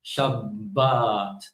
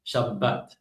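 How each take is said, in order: First: "Shabbat" with short first vowel, long second ah; shab-BAAAT, stretching the last vowel of "Shabbat". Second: "Shabbat" with both a vowels near equal, b doubled; shab-bat, evenly weighted vowels in "Shabbat". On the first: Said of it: "the second vowel is longer". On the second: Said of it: "make less of a difference between". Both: Shown as a demonstration.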